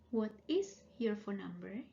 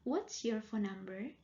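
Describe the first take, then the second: First: It is said at a normal, unhurried pace. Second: It is said faster, with words run together.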